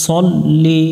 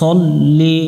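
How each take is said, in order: First: The first syllable is heavy, with a rounded vowel. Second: The first syllable is heavy, with a rounded vowel.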